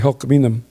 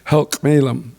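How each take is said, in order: First: The name mixes an L sound and N sounds. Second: The name uses L sounds, articulated carefully. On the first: This is the island dialect form. "they use both L's and N's" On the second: This is the upriver dialect form. "upriver has the L, and it's articulated a little bit more"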